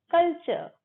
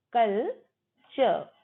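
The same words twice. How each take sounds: First: 'कल्चर' as a quick KUL-chuh; higher 'कल्चर' in one go, no final R; silent R, joined up. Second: 'कल्चर' slowly as kul, chuh; broken into syllables. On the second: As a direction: split 'कल्चर' in two, final R silent. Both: Shown as a demonstration. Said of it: "र silent होता है".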